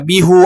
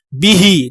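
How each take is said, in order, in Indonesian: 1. Kata ini diakhiri dengan vokal u. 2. Kata ini diakhiri dengan vokal i. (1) "tidak dibaca bihu" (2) "contoh bihi"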